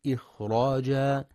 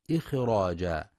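First: إخراجا with a still, whispered خ; silent breathy kha. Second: إخراجا with a bounced خ; mock mistake in إخراجا; wrong bouncing kha. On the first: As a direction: correct demo of إخراجا. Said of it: "لسكون وهمس الخاء". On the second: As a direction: show the error: a jolt on the خ. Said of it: "بقلقلة الخاء". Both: Shown as a demonstration.

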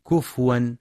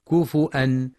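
First: كفوا with a silent fa, the wrong reading; wrong sukun reading. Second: كفؤا with a glottal hamza and fa with u; hamza variant reading. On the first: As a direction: say كفوا with the fa unvoweled. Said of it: "فلا يقرأ بسكون الفاء". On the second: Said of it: "أو بالهمزة مع ضم الفاء". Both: Shown as a demonstration.

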